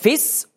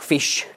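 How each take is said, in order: First: The word ends with a plain s sound. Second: The word ends with an sh sound. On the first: The speaker is still learning German. The speaker calls it wrong. "Im Griechischen gibt es kein Sch-Laut, sondern nur das S" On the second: The speaker has learned German well. The speaker calls it right. "wenn sie Deutsch gut lernen"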